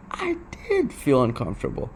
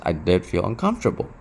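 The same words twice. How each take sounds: First: Did pushed up, rest softer; stress on DID. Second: Said in the usual way. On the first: Shown as a demonstration. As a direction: lean on did, admit it quietly. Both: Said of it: "I'll be honest".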